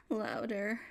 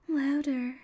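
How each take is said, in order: First: Said in the usual way. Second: Higher and louder insistent push; louder demand. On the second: Acted. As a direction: raise it into a demanding cry. Urging partner to be louder.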